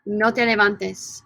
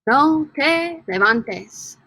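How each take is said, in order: First: Said in the usual way. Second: Slow, drawn out, stress on "No"; teacher's careful slow model; slow model pronunciation. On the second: Shown as a demonstration. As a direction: say "No te levantes" slowly, syllable by syllable.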